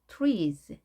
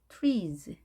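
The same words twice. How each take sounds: Both takes have the same delivery.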